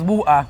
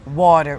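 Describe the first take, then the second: First: It is said in a British accent. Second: It is said in an American accent. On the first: "You've never heard that sound before" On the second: "they learn a lot more the American English"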